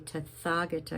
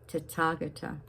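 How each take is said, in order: First: The 'th' sounds like English 'th' in 'thin'. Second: The 'th' sounds like a plain 't'. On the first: The speaker calls it wrong. "you don't say Tathagata" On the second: The speaker calls it right. "you say Tathagata"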